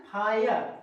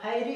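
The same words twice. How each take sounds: First: फायर as "faa-yar", no final "ee"; correct reading of फायर. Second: फायरी with an extra final "ee"; wrong reading of fire. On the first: Teacher answers how to read it, correct फायर. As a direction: model फायर ending on a plain "ar". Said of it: "यहाँ पे से क्या पढ़ना है". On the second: Teacher warns against voicing the e, mispronounced फायरी. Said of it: "ऐसे नहीं पढ़ना है". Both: Shown as a demonstration.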